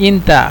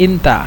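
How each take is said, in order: Both takes have the same delivery.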